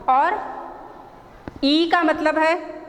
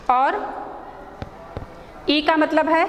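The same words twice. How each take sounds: The two takes are said the same way.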